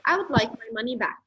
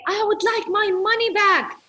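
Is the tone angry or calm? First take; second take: calm; angry. First: It sounds calm and polite. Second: It sounds urgent and angry.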